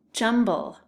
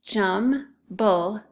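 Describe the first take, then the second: First: Said in the usual way. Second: JUMBLE in two separate beats, JUM, pause, BLE; split into syllables. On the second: Shown as a demonstration. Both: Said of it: "listen closely to those syllables".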